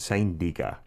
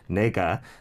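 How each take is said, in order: First: The first vowel sounds like 'i'. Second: The first vowel sounds like 'e'. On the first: It clearly means you. The speaker calls it right. "to avoid confusion, say niga" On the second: It could mean either I or you. The speaker calls it wrong. "pronounce it the way it's spelt"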